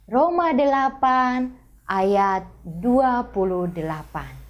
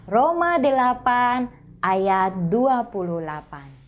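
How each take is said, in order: First: It is said slowly and deliberately. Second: It is said at a normal pace.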